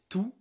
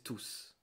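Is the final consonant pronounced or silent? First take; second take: silent; pronounced. First: The final consonant is silent. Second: The final consonant is pronounced. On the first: It is used as an adjective. "pronounced the same as tout avec un T" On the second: It is used as a pronoun. "when I use it as a pronoun, I pronounce it like tous"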